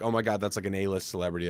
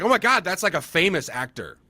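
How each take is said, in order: First: Low, soft awed muttering; stunned mutter. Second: High, excited double take; amazed realization. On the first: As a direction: mutter it to yourself, dazed. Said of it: "walking off like". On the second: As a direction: realize who she is, starstruck. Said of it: "And then I realized". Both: Retold or imitated.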